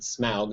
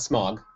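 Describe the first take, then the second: First: The vowel glides like 'ow' in 'cow'. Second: The vowel is a short 'o' as in 'fog'. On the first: The speaker calls it right. "but Smaug. You have to pronounce it correctly" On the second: The speaker calls it wrong. "not Smog"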